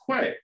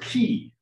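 First: The word sounds like 'kway'. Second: The word sounds like 'key'. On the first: The speaker calls it wrong. "I pronounced it in my head as quay" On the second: The speaker calls it right. "it's actually pronounced key"

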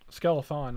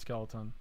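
First: The middle consonant is a 'th' sound. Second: The middle consonant is a 't' sound. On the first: The speaker calls it right. "Skelethon, not Skeleton" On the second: The speaker calls it wrong. "not Skeleton. I said it wrong"

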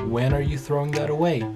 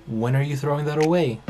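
Both takes have the same delivery.

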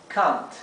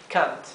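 The two takes are said the same way.

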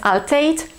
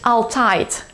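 First: The vowel is pronounced as an 'ej' diphthong. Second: The vowel is a lowered, more open diphthong. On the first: The speaker calls it right. "zamiast altijd, poprawnie czytamy jako EJ" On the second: The speaker calls it wrong. "możesz słyszeć altijd"

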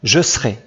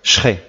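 First: The phrase is said in two syllables. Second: The phrase is squeezed into one syllable. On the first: It sounds less formal and northern. "tu peux le prononcer ou pas" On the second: It is very informal speech. "très informel, une syllabe"

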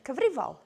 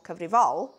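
First: The stress is on the middle syllable. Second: The stress is not on the middle syllable. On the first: The speaker calls it right. "You said cyfrifol" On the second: The speaker calls it wrong. "You didn't say cyfrifol"

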